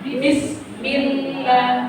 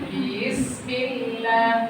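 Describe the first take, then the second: First: The first vowel is short and firm. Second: The first vowel is dragged out long. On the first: The speaker calls it right. "tapi tegas" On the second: The speaker calls it wrong. "jangan diseret"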